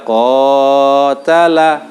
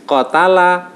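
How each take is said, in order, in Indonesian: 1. Vokal panjangnya dipanjangkan terlalu lama. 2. Vokal panjangnya dipendekkan, tidak dipanjangkan. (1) "itu sudah berlebihan karena melebihi bacaan yang benar" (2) "oh berarti itu enggak ada bacaan matnya"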